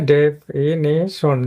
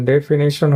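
First: definition very slowly, as de... fi... ni... shon; drawn-out teacher's breakdown of definition into four parts; syllable by syllable. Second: Said in the usual way. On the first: Shown as a demonstration. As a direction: pause between each syllable of definition. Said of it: "এখানে একটা আলাদা করবে syllable". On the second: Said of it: "definition হয়েছে".

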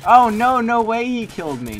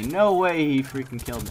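First: Much higher, very loud shriek of disbelief; outraged disbelief. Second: Said in the usual way. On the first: Real, not acted. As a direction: scream at the unfair death. Outraged at getting killed.

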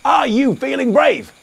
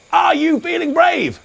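First: Said in the usual way. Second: Calling it out again, high and louder; louder, higher repeat. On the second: Shown as a demonstration. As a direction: ask again with more energy. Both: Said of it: "I said".

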